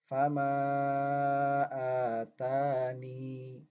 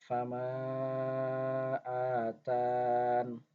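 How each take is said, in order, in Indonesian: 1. Vokal 'ee' di akhir dibaca. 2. Vokal di akhir dihilangkan, berakhir dengan 'n'. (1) "waqaf dengan itsbatul ya" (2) "dengan hadzful ya, huruf ya-nya kita eh, tidak baca"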